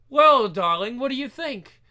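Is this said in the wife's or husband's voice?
wife's. It is said in the wife's voice.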